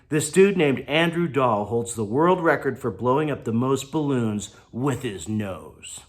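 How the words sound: It is read expressively, with feeling.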